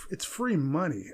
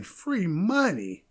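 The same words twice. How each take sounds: First: Said in the usual way. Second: "free money" slowed right down, each word leaned on; slow stressed repeat. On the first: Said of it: "Again, free money". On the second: Real, not acted. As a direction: drag out "free money" to drive it home.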